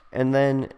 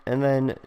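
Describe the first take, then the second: No difference in how they are said.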